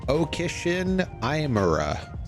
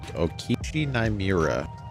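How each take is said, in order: First: It is said in a put-on Southern accent. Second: It is said in the speaker's ordinary accent.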